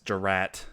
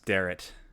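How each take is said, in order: First: The first syllable does not sound like 'dare'. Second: The first syllable sounds like 'dare'. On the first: The speaker calls it wrong. "mispronounce my last name and say that it's Durrat" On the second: The speaker calls it right. "even though it's Darrett. Like, I dare"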